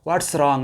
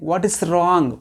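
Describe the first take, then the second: First: The words 'what is' merge into 'what's'. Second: The words 'what is' are said separately. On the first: "వాట్ ఈజ్నే contract చేసి వాట్స్గా మనం పలుకుతుంటాం" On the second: "వాట్ ఈస్ wrong బదులుగా"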